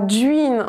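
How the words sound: The first consonant is palatalized, like 'dj'. This is the regional local pronunciation. "qu'on dira duine en pays vantais à Groix"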